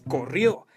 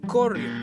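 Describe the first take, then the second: First: The stress falls on the last syllable. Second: The stress falls before the last syllable. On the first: The speaker calls it right. "La manera correcta es" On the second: The speaker calls it wrong. "Si a esta palabra no le pusiéramos tilde, diría"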